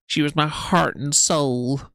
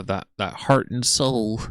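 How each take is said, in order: First: "heart" pushed high and louder, drawn out; stress on heart. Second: Said in the usual way. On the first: Retold or imitated. A commentator mimicking Amber stressing "heart". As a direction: lean hard on "heart" in a mock whine. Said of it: "The emphasis on heart in that way". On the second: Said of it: "I can only do".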